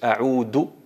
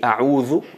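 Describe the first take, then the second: First: The middle consonant is a plain d sound. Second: The middle consonant is a soft th sound. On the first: It means I return. The speaker calls it wrong. "si tú dices a'udu billahi minash shaitanir rajim, ahí alteras totalmente el significado" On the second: It means I seek refuge. The speaker calls it right. "a'udhu me, me refugio en Allah"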